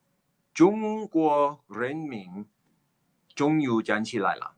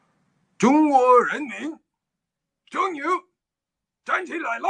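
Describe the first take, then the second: First: Slow, less heightened proclamation; a second, milder go at Mao; a toned-down Mao proclamation; lighter Mao impression. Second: Mimicking Mao's proclamation; Chairman Mao impression. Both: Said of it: "it's my Chairman Mao impression".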